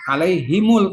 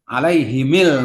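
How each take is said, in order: First: The m is followed by a u vowel. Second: The m is followed by an i vowel. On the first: This is the reading most reciters use. "tetap doma" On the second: This is another reciter's reading.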